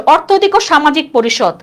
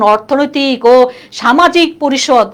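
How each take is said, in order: First: Said in the usual way. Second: Slow, drawn-out full name; laboriously long-winded. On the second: Shown as a demonstration. Teacher shows why the full name is cumbersome, slowly and laboriously. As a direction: spell out every part as a mouthful. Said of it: "বলতে কষ্ট হয় না".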